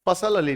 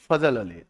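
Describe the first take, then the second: First: The first name has an s sound. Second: The first name has a z sound. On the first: The speaker calls it wrong. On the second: The speaker calls it right.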